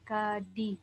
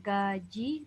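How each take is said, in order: First: The middle consonant sounds like d. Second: The middle consonant sounds like j. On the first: The speaker calls it wrong. "bukan gadi" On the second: The speaker calls it right. "dibaca gaji"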